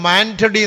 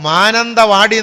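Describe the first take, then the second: First: The name is clipped to three syllables. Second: The name is said fully with five syllables. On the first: The speaker calls it wrong. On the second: The speaker calls it right.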